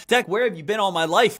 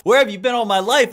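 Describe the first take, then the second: First: A slightly louder plea, still close to own voice; pleading viewer. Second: Higher and much louder repeat of the plea; louder mock plea. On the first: Pretend. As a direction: start the mock plea lightly. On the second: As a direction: push the same line up, hammed-up. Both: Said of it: "pretend viewer addressing Deck".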